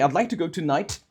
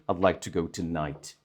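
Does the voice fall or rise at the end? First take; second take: rise; fall. First: The voice rises at the end. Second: The voice falls at the end.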